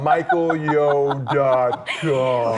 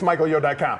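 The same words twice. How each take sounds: First: It is said slowly. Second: It is said fast.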